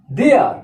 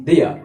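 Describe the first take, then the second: First: "They are" as two words; full form. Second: "they are" run together as they're; one-word contraction. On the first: Teacher showing what will be contracted, "They are" in full. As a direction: sound both "They" and "are". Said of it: "মানে একবার উচ্চারণ করছি". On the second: Teacher showing one pronunciation, "they are" said as they're. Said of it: "একবার উচ্চারণ করছি". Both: Shown as a demonstration.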